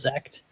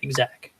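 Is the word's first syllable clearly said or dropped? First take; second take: dropped; clear. First: The first syllable is dropped, starting with z. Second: The word is said fully, first syllable included. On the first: "instead of zact" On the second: "to say exact"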